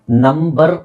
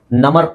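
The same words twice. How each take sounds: First: Slow ನಂಬರ್ split "num-bar"; b sounded. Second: ನಮರ್ as "nummar"; b wrongly dropped. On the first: Teacher models correct number, b sounded slowly. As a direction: stretch ನಂಬರ್ with a clear b. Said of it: "ಇಲ್ಲಿ ಬಿ silent ಆಗಲ್ಲ". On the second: Teacher shows impossible reading of number, b dropped. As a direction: go from m straight to the vowel in ನಮರ್. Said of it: "ಅಂತ ಹೇಳ್ಲಿಕ್ಕಾಗಲ್ಲ". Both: Shown as a demonstration.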